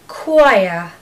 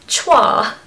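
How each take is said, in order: First: It begins with a k sound, like quiet. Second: It begins with a ch sound, as spelled. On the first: The speaker calls it right. "just think of the word quiet" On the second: The speaker calls it wrong. "If it was being said phonetically"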